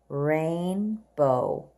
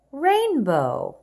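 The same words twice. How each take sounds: First: Rainbow drawn out long and low; slow model read. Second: Rainbow higher and louder; bright confirming read. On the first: Teacher modelling Rainbow slowly for young readers. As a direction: stretch Rainbow for the class. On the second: Teacher confirming rainbow brightly for the class. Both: Shown as a demonstration. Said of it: "Let's read the words together".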